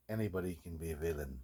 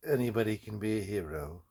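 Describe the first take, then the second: First: Much softer, low and menacing; sinister villain line. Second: Ringing, grand hero line with a lift at the end; heroic declaration. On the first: A guy in his workshop hisses the villain line menacingly. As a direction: let it sink down like a threat. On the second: A guy in his workshop proclaims the hero line grandly. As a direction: proclaim it like a movie trailer. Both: Acted. Dramatic hero vs villain lines.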